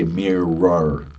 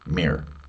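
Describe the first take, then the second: First: The word is said carefully with every syllable. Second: The word is said quickly in a reduced form. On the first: The speaker calls it wrong. "we don't say mirror" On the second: The speaker calls it right. "when we say it quickly, we simply say mirror"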